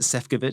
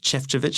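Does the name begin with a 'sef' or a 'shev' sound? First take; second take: sef; shev. First: The name begins with a 'sef' sound. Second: The name begins with a 'shev' sound. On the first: This is how the name looks when written. "is how it looks, how it's spelled" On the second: This is how the name is really pronounced. "I've been told is how you pronounce it"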